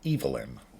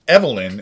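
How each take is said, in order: First: It is pronounced the male-name way. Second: It is pronounced the usual female-name way. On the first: The name belongs to a man. "it is also a man's name if you pronounce it Evelyn" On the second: The name belongs to a woman. "Evelyn is a woman's name"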